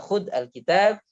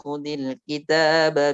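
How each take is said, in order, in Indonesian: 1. 'Khud' berakhir dengan konsonan sebelum 'alkitab'. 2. 'Khud' dihubungkan dengan 'kitab' dengan vokal 'i'. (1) "jadi enggak khud alkitab" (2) "Jadi khudil"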